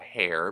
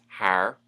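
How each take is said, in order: First: The R at the end is soft. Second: The R at the end is hard.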